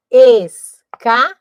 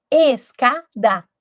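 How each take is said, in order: First: "escada" dito muito lento e mais alto, sílaba por sílaba; separando sílabas. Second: "escada" dito devagar, sílabas destacadas; sílabas marcadas. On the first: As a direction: arraste "escada" contando cada pedaço. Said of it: "Três também". ("escada" lento e silabado) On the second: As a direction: pronuncie "escada" pausadamente. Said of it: "Eu abro a minha boca". ("escada" pausado) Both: Shown as a demonstration.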